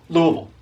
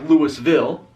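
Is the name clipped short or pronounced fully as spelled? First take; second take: clipped; full. First: The syllables are squeezed together into a short word. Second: Each syllable is pronounced fully, as it is spelled. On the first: "Three syllables, one word. Like you're just throwing a ball" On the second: "it looks like Louisville"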